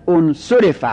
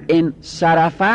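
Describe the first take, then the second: First: انصرف said as "unsurifa"; passive vowelling. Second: Said in the usual way. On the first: Shown as a demonstration. Teacher showing the sad takes u, vowelled passive. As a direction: say انصرف with u, u, then i.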